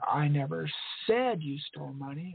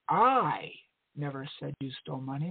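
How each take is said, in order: First: The stress is on "said". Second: The stress is on "I".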